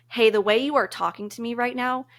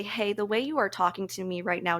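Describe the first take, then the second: First: Said in the usual way. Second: Calm, even, a little softer; calm but firm telling a friend her tone hurts. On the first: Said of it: "and not an egoic manner". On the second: Shown as a demonstration. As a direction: set the boundary gently, without ego. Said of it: "you need to say this in a very calm manner".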